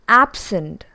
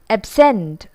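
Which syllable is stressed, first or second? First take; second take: first; second. First: The stress is on the first syllable. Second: The stress is on the second syllable. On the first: It is used as a noun or adjective. "The stress is on the first syllable" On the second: It is used as a verb. "the stress shifts to the second syllable"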